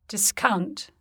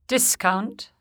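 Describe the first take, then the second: No difference in how they are said.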